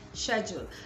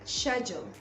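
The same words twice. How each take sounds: First: It is said with a British pronunciation. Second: It is said with a British pronunciation.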